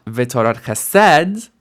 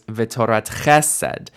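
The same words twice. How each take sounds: First: V'torat che-SED, slow and loud on "sed"; v'torat chesed rising to a punched last syllable; wrong final stress. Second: V'torat CHE-sed, beat on "che"; v'torat chesed falling after a stressed "che"; initial stem stress. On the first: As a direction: land the beat on "sed" in chesed. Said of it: "So it's not". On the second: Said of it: "the stress stays on the first letter of the segolit stem". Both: Shown as a demonstration.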